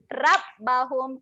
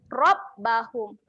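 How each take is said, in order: First: The r is pronounced light and thin. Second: The r is pronounced heavy and thick. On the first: The speaker calls it wrong. "bunyi macam tu salah" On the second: The speaker calls it right. "Ra kat sini keadaannya tebal"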